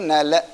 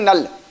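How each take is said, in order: First: The word ends with a vowel after 'l'. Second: The word ends on the consonant 'l'. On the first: This is the Sanskrit reading. "Sanskrit में उसको पढ़ेंगे नल" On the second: This is the Hindi reading. "Hindi में पढ़ेंगे नल"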